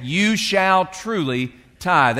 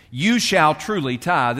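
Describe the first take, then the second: First: Slow, weighty "You shall truly Tithe" with each word pressed; emphatic command. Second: Said in the usual way. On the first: Shown as a demonstration. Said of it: "It, it is an emphatic statement". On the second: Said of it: "that's an emphatic statement".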